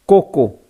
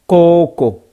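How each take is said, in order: First: Koko with short, quick vowels. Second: Koko with its vowel drawn out; long vowel. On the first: Teacher giving the short-vowel Koko for gale. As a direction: keep the vowels in Koko brief. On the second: Teacher giving the long-vowel koko for braise. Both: Shown as a demonstration. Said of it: "Voyelle longue".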